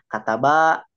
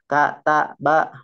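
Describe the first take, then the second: First: The word is read smoothly in one go. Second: The word is read slowly, broken into syllables. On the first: "bisa membaca huruf hijaiyah sambung" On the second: "membaca lambat ataupun terbata-bata"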